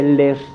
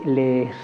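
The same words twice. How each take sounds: First: The word is clipped to one short vowel. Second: The word has a long, double vowel sound. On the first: The speaker calls it wrong. "no se dice" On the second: The speaker calls it right. "se dice"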